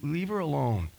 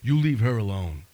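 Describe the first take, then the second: First: It is said gently, almost pleading. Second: It is said firmly and with authority.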